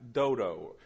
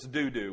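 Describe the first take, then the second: First: Both syllables have an 'oh' vowel. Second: Both syllables have an 'oo' vowel.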